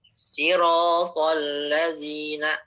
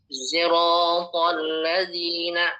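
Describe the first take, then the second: First: The first word begins with an s sound. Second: The first word begins with a z sound. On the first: "Dengan sin" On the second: "pakai ism zai"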